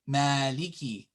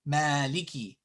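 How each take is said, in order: First: One vowel is clearly lengthened. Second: One vowel is clearly lengthened.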